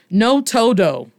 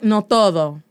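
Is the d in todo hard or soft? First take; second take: hard; soft. First: The d in todo is a hard stop. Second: The d in todo is a soft th-like sound. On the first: The speaker calls it wrong. "No swag" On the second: The speaker calls it right. "Con el swag"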